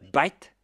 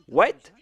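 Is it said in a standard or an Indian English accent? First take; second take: Indian English; standard. First: White is said with a b, Indian English style. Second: White is said with a plain w sound.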